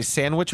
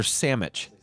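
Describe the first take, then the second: First: Said in the usual way. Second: Sandwich said as "SAM-itch"; slurred variant pronunciation. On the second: Shown as a demonstration. Co-host polling the room on two versions, sandwich as "sammitch". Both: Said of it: "Do you say sandwich or sandwich".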